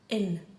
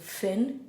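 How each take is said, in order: First: The word begins without any F sound. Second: The word begins with an F sound. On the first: "We lose the F noise completely whenever the H specialty goes in" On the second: "So Finn is blonde"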